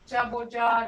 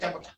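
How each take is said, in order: First: The vowel sound is held long. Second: The vowel sound is cut short. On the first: The speaker calls it right. "that's long" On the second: The speaker calls it wrong. "you can't say jaboja. It wouldn't be right"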